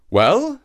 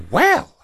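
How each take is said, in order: First: Anxious. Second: High, loud rising exclamation; exclaiming. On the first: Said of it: "said the shark anxiously". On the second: Monkey hears his heart is wanted, exclaiming. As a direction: exclaim it sharply upward. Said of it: "exclaimed Kima". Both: A narrator's reading.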